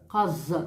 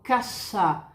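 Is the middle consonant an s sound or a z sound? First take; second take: z sound; s sound. First: The middle consonant is a voiced z sound. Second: The middle consonant is a voiceless s sound. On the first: The speaker calls it wrong. "Eu não falo cosa, casa. Não tem som de Z em espanhol" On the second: The speaker calls it right. "Eu falo casa"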